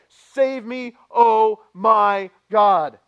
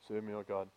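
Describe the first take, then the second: First: It is said loudly, like an exclamation. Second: It is said quietly, like a silent prayer.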